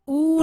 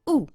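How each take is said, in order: First: The vowel is held long. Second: The vowel is kept short. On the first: The speaker calls it wrong. "ऊ नहीं है" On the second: The speaker calls it right. "पुट में ऊ की मात्रा"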